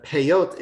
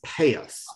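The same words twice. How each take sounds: First: Peyot with stress on the last syllable; Hebrew stress. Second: Peyos stressed on the first syllable; Yiddish stress. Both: Shown as a demonstration. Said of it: "moves the accent from the end".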